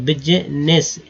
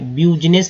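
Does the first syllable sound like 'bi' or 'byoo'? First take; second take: bi; byoo. First: The first syllable is said as 'bi'. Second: The first syllable is said as 'byoo'. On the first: The speaker calls it right. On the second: The speaker calls it wrong.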